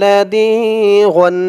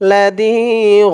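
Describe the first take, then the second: First: The word ends with a nasal 'an' sound. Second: The word ends in a long 'a' without n. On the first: "দুই জবর গন" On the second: "থামার কারণে এখানে উচ্চারণ হবে লাদিগ"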